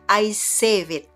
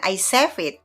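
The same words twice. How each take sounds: First: The vowel in save glides, like two parts. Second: The vowel in save is short, like chef. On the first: The speaker calls it right. "Ini cara bacanya adalah save, dua suku kata" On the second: The speaker calls it wrong. "jadi bukan I save it, bukan"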